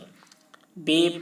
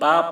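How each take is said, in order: First: The name ends in a closed ay sound. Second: The name ends in an open ah sound. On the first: The speaker calls it right. "मजहूल पढ़ा गया" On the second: The speaker calls it wrong. "इस तरीके से मारूफ नहीं पढ़ा गया है"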